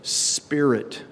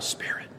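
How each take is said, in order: First: The word is said at normal volume. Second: The word is said quietly, like a breath.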